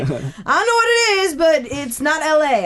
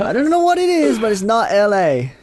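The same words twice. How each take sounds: First: Friend's puzzled verdict, pitched up at first; retold friend. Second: Very high mock imitation, slowing at the end; hammed-up high-pitched retelling of a friend; mimicked friend's verdict. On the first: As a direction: imitate a friend judging an accent. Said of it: "He's like". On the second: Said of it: "Oh, let me try that".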